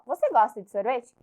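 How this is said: It is said with the tune of a question. It asks whether the listener likes ice cream. "se eu mudar a minha entonação ... Eu já estou fazendo uma pergunta"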